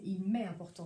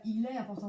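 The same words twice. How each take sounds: First: "m'est" prononcé distinctement, le "m" bien marqué; accent sur M'EST. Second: Said in the usual way. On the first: Shown as a demonstration. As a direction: make the added "m" in "m'est" clear. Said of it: "il y a le me". (insister sur « m'est », avec le m audible) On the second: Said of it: "c'est pas il est important".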